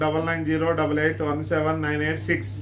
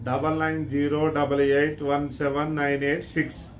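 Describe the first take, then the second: First: The number is read at a normal, quicker pace. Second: The number is read slowly and deliberately.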